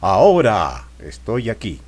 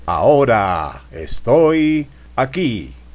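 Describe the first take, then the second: First: Individual sounds within words are sharply marked. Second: The words are drawn out and lengthened. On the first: "Remarcando letras" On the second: "Alargando palabras"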